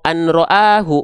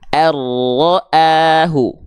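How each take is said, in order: First: The n is pronounced separately before the r. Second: The n merges fully into a doubled r. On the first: The speaker calls it wrong. "nggak dibaca" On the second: The speaker calls it right.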